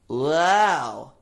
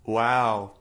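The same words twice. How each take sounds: First: It is said in a bright, whiny voice. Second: It is said in a plain, normal voice.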